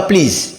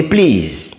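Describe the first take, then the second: First: "please" with a short, quick vowel; wrong short please. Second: "please" with a long EE; drawn-out please. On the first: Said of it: "On dit pas please". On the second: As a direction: stretch the vowel in "please". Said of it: "on dit please". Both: Shown as a demonstration.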